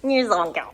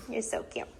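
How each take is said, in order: First: Said in the usual way. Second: Soft whispered cooing. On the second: Real, not acted. Owner whispering to her puppy, soft whisper. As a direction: breathe it to the puppy.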